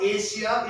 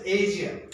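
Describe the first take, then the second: First: Asia with a hissed 'sh', AY-shia; wrong pronunciation shown. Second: Asia with a voiced middle, AY-zhia; corrected pronunciation. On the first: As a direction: show Asia with 'sh' in the middle. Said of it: "is not Asia". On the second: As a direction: model Asia with 'zh' in the middle. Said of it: "it's Asia". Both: Shown as a demonstration.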